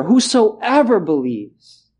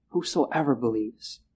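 First: "whosoever" high, slow and stressed; slow, high emphasis on "whosoever". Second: "whosoever believes" dropped low and soft; quiet, low echo; soft repeat. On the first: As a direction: lift and stretch "whosoever". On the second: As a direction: echo it softly, lower. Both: Shown as a demonstration. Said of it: "two words to emphasize".

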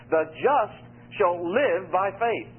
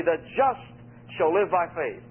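First: Slow, with "live" pressed down hard; "live" carries the line, said slowly; stress on LIVE. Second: "just" lifted and held, with a pause after it; stress on JUST. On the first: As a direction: weigh "live" more than the other words. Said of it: "there the emphasis on the word live". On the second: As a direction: lean on "just", then let "shall live by faith" follow. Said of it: "what you zero on in is Romans is the word just". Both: Shown as a demonstration.

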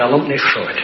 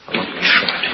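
First: Said in the usual way. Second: Voiceless, subdued echo; hushed repeat. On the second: Real, not acted. Preacher dwelling on Paul's grief at Cyprus, hushed. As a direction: let the voice fall away into breath.

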